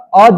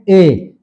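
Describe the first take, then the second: First: The word has a short, reduced vowel. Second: The word has a full, long vowel. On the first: "अ जो हुआ ये इसका weak form है" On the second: "ये इसका strong form है"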